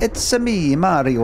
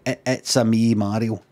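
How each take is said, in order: First: High, sing-out Mario catchphrase; Mario impression. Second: Low, subdued take on the catchphrase; Mario. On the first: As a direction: pitch it up high like Mario announcing himself. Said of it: "I'd go like that". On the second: Acted. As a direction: say the catchphrase low and held back. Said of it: "I'm not allowed to go".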